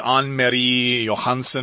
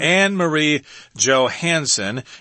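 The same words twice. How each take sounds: First: The name is pronounced the Danish way. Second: The name is pronounced the English way. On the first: "maybe in Danish you say Anne Marie Johansson" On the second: "we're going to go with the English pronunciation here"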